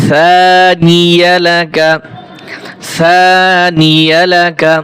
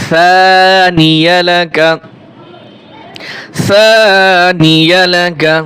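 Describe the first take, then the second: Both takes have the same delivery.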